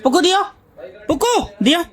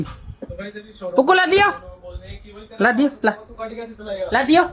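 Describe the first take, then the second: First: Put-on baby talk. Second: Put-on drawn-out baby talk. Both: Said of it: "देखना इसका reaction".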